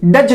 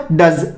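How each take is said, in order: First: डज ending in J, "duj"; wrong J ending. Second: डज ending in Z, "duz", pitched low; correct Z ending. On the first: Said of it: "डज नहीं बोलेंगे". (डज के अंत में ज की गलत ध्वनि) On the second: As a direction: model डज low as डज़. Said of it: "क्या हो गया?". (डज के अंत में ज़ की ध्वनि) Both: Shown as a demonstration.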